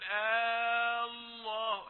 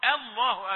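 First: The opening vowel is drawn out long. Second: The opening vowel is kept short. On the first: It asks a question. The speaker calls it wrong. "يمد الهمزة من غير داعي يقول الله" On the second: It makes a statement. The speaker calls it right. "قل بصيغة الاخبار"

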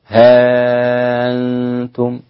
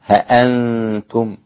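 First: The glottal stop is softened and the vowel short. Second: The glottal stop is full with no long vowel. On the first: "تسهيل الهمزة مع قصر المد" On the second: "حذف الألف مع تحقيق الهمزة"

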